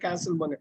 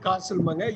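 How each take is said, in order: First: The first vowel is short and front, like cat. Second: The first vowel is long and open, like father. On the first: "யூஎஸ்ல" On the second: "யூகேல"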